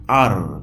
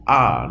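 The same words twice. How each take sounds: First: "আর" with a sounded r; non-British letter R; wrong pronunciation. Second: "আ" as an open r-less ah; British letter R; British pronunciation. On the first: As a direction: finish "আর" on a clear r. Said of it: "not আর". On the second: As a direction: lengthen "আ" with no r. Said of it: "উচ্চারণটা হবে আ". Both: Shown as a demonstration.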